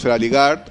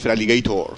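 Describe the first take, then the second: First: The name ends with a short 'gard' sound. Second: The name ends with a full 'gator' sound. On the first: This is how everyone commonly says it. The speaker calls it wrong. "pronunciamos todos Feraligard" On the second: This is the actual name. The speaker calls it right. "pero realmente es Feraligator"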